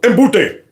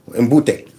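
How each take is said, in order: First: It is said loudly and forcefully. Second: It is said quietly and weakly.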